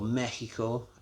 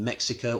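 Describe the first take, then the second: First: It is said with a Spanish pronunciation. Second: It is said with an English pronunciation.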